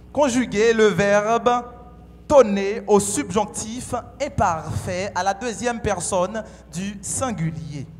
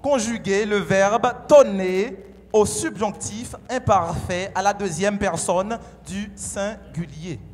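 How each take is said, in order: No difference in how they are said.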